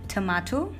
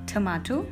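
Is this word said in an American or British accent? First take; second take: British; British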